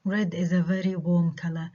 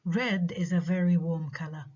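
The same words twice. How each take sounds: First: "Red is a very warm color" slowly, falling at the end on "color"; plain statement, voice falls on "color"; falling intonation. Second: "Red" stressed with a sudden pitch change, then falling; contrastive stress on red. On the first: Teacher shows students an ordinary standalone statement, falling intonation on "color". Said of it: "إذا بحكيها وبسكت falling intonation". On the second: Teacher contrasts red with orange, pitch change and stress on "Red". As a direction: slowly set "Red" apart, rising then falling. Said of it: "بعدين تتغير البيتش فجأة عند مين؟".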